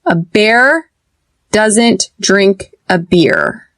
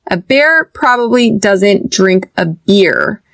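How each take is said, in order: First: Slow, "bear" open like hair, "beer" tense; bear versus beer. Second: "bear" open like hair, "beer" tense like a smile; bear versus beer. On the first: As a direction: stretch out "bear" and "beer" to show the contrast. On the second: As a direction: contrast "bear" and "beer" clearly, slowly. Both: Shown as a demonstration. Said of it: "do you hear the difference".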